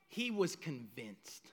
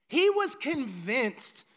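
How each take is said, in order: First: Low, soft, understated; quiet low statement. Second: Slow and firm, driving it home; slow, deliberate emphasis; slow emphatic. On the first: Quiet, low restatement of Saul's certainty. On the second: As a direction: lean on each word, slowly. Emphatic repeat of same phrase. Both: Acted.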